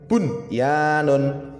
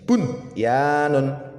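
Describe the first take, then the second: No difference in how they are said.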